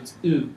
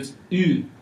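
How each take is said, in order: First: The vowel is a plain u sound. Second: The vowel is an umlauted ü sound. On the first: "If it's U without the umlaut" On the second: "But if it's umlaut on top of the U"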